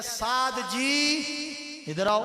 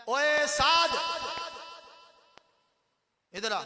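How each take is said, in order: First: Slow, stretched polite calling; respectful call. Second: Put-on loud, higher, curt calling of a boy; rough call. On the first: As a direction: draw out "سعد جی" gently and courteously. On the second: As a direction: bark his name across the room. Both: Shown as a demonstration. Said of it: "یہ بھی ایک طریقہ ہے".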